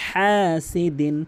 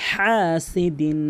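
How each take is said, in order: Both takes have the same delivery.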